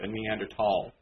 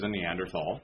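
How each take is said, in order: First: The word is pronounced the careful way. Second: The word is pronounced the everyday way. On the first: The speaker calls it right. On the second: The speaker calls it wrong.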